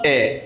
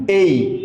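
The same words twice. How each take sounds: First: Put-on letter A said as short "এ", the old wrong way. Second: Letter A said as "এই", a gliding ay sound; new correct letter A. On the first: Teacher to students, showing the old wrong "এ". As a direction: say "এ" as the old habit, one short vowel. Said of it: "এটাকে আমরা এতদিন কি উচ্চারণ করতাম". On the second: Teacher to students, modelling the correct "এই". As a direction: say "এই", sliding from e to i. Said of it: "এটা আজকে থেকে বলবেন কি". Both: Shown as a demonstration.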